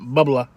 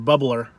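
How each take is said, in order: First: It is said in a Rhode Island accent. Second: It is said in a general American accent.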